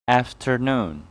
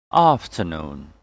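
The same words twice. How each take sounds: First: "Afternoon" with flat "a" and sounded R; American pronunciation. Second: "Afternoon" with long "ah", no R; British pronunciation. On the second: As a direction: say "Afternoon" as British "ahf-tuh-noon". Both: Shown as a demonstration. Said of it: "And American English will be".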